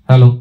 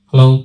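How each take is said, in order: First: The voice has a flat, unboosted tone. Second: The voice has boosted high treble frequencies. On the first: "এটি ছিল flat পজিশনের আওয়াজ" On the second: "ট্রিবেলকে আমি দেখছেন boost করে দেখাচ্ছি"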